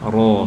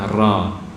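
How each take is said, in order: First: The syllable is thick, with a darker vowel. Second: The syllable is thin, with a lighter vowel. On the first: The speaker calls it right. "Jadi ro fathah" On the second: The speaker calls it wrong. "bukan ra"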